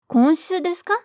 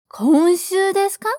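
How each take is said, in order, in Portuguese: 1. É falada em ritmo mais rápido. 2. É falada em ritmo mais lento, normal.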